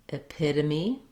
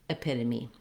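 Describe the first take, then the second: First: It is said at a medium, faster pace. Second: It is said quickly and smoothly as one word. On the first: "then speed up" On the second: "so that you can say it smoothly"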